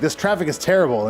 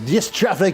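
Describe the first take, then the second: First: It is said in a plain accent. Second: It is said in a Russian-like accent.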